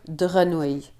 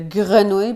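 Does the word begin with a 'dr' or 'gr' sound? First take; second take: dr; gr. First: The word begins with a 'dr' sound. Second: The word begins with a 'gr' sound. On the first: The speaker calls it wrong. "pourrait devenir drenouille" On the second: The speaker calls it right. "comme dans le mot grenouille"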